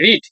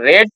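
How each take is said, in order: First: The vowel is a long 'ee' sound. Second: The vowel is a short 'e' sound. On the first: It is the present form of the verb. "এটা হচ্ছে এটা V one, এটা রিড" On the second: It is the past form of the verb. "V two রেড"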